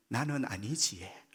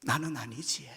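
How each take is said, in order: First: "나는 아니지에" in a slow Gyeongsang dialect lilt, falling at the end. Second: 1 Gyeongsang dialect. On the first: 경상도 사투리로 천천히. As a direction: drawl it Gyeongsang style, softer and slower. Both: Shown as a demonstration. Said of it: "경상도 말로".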